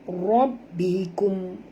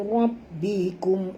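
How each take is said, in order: No difference in how they are said.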